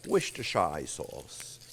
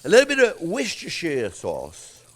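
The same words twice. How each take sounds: First: "Worcestershire" spelled out slowly, much lower and softer, like "wish-too-shire"; careful pronunciation. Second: Said in the usual way. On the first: Shown as a demonstration. Host trying out the tricky sauce name for viewers, slow and careful. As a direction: sound out "Worcestershire" slowly and low, each syllable deliberate. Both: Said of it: "However you say it".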